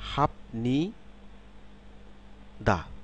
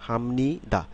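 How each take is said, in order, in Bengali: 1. সিলেবলগুলো আলাদা; প্রথমটি p-তে শেষ হয়। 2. সিলেবলগুলো মিলে যায়; প্রথমটি m-তে শেষ হয়। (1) "আমি যদি সিলেবাল অনুসারে উচ্চারণ করি" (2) "শব্দ যখন শব্দে উচ্চারিত হবে তখন এটা উচ্চারণ হবে কি হামনি দা"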